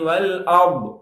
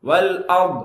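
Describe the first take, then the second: No difference in how they are said.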